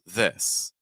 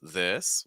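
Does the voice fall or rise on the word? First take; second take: fall; rise. First: The pitch falls on the word. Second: The pitch rises on the word. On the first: "falling intonation like this" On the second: "rising intonation like this"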